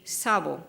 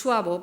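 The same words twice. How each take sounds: First: Sabo said as sah-bo, with no w sound; pronounced sabo. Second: Suabo said as swah-bo, with a w after the s; pronounced suabo. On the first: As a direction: say sabo plainly as sah-bo, two syllables. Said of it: "but other people say sabo". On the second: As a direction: say suabo as two syllables, swah-bo. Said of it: "and I will pronounce suabo". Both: Shown as a demonstration.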